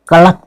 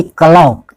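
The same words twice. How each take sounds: First: क्लॉक with a short vowel, "ka-lak"; correct pronunciation. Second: क्लॉक with a long vowel, "ka-lauk"; wrong pronunciation. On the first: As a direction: say क्लॉक as "kalak", no "au". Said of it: "इसको हम क्लॉक पढ़ते हैं". (क्लॉक को "कलक" बोलें) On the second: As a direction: stretch क्लॉक into "kalaok". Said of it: "ना कि क्लॉक". (क्लॉक को "कलौक" बोलें) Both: Shown as a demonstration.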